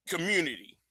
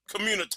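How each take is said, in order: First: Said in the usual way. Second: "community" ending in "tah", softer; altered pronunciation. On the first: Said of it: "I'm really allergic to that word". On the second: Shown as a demonstration. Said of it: "I'm gonna keep using that".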